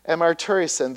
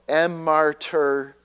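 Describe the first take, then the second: First: It is said at normal speed. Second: It is said slowly.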